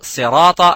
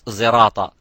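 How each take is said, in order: First: The word begins with an emphatic s sound. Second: The word begins with a z sound. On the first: The speaker calls it right. "You would say uh, sirata" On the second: The speaker calls it wrong. "you wouldn't say in riwayat Hafs zirata"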